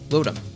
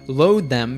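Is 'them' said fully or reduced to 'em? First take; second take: reduced; full. First: Them is reduced to a short em. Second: The word them is said in full.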